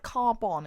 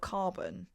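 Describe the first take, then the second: First: The ending sounds like the name Albon. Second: The ending sounds like ordinary carbon. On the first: The speaker calls it right. "I want to say it like Carbon" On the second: The speaker calls it wrong. "instead of Carbon"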